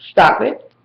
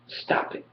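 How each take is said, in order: First: Said in the usual way. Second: Breathy whispered stop it, nearly silent. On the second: Acted. Telling Booge to stop, trailing into a whisper. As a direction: let stop it fall to a bare whisper. Repeating stop it, fading away.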